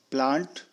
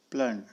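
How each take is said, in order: First: प्लांट with a long open aa; British broad aa in प्लांट. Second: प्लंट with a short a; American short vowel in प्लंट. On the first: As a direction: stretch the aa in प्लांट. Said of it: "आ का use किया जाता है". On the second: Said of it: "American English में अ". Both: Shown as a demonstration.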